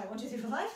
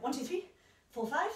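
First: Rapid count, words run together; quick run-together count. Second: Slow, spaced-out count; slow counting with pauses. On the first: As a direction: rattle off the count fast. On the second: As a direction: count it out slowly, beat by beat. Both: Shown as a demonstration. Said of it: "play around with the tempo".

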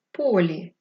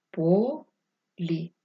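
First: Said in the usual way. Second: По... лі, drawn out in two parts; syllable-by-syllable dictation. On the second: Shown as a demonstration. Teacher dictating the last word, syllable by syllable.

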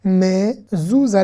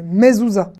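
First: "Mezouza" slowly as mé, zou, za; three separated, lengthened syllables in "Mezouza". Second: Said in the usual way. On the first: Shown as a demonstration. Teacher sounding out a Hebrew word, syllable by syllable. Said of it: "on va faire consonne plus voyelle". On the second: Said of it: "je suis obligé de dire mais".

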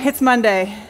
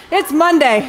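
First: Second "It's Monday" low and deflated; resigned repeat. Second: "It's Monday" lifted and brighter, a cheeky shrug; first "It's Monday" with a lively lift; playful excuse. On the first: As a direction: let "It's Monday" sink as a sigh-like aside. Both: Real, not acted. Excuse after the wimpy woo.

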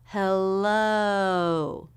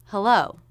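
First: "Hello" slowly stretched, jaw open then lips rounding; long, gliding "Hello" showing both halves of the O; drawn-out O diphthong. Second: Said in the usual way. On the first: Shown as a demonstration. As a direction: draw out the "lo" of "Hello" into a rounded close. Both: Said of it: "Drop your jaw for the first half".

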